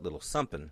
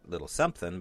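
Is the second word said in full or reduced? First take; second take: reduced; full. First: The second word is said in reduced form. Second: The second word is said in full. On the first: The speaker calls it right. "but little sumpin" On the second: The speaker calls it wrong. "So not little something"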